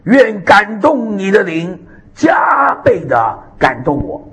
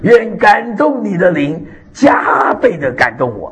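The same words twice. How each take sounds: First: Slow, tearful cry of a plea. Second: Slow, steady prayer for all to repeat; prayer demo. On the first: Acted. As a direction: beg for the double portion through tears. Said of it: "以利沙说". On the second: Shown as a demonstration. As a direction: lead the congregation in the prayer. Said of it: "我们大家都学会这个祷告".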